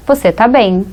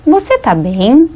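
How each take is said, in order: First: "você tá bem" stated, falling on BEM; statement intonation. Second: "você tá bem" asked slowly, rising on BEM; question intonation. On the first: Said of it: "prestem atenção na diferença". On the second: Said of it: "é só a entonação". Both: Shown as a demonstration.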